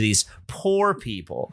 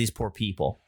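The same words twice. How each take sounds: First: The stress falls on the word poor. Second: The stress falls on the word people. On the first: The people have little money. The speaker calls it wrong. "that inflection is really weird" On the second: The people are unfortunate and deserve pity. The speaker calls it right. "which is how it's written"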